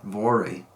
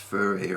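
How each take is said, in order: First: It is said the common American way. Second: It is said the way Germans say it. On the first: The speaker calls it wrong. "in the United States and elsewhere, a lot of people pronounce that Vore" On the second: The speaker calls it right. "people from Germany ... say it should be pronounced Fure or something like that"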